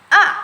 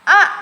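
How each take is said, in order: Both takes have the same delivery.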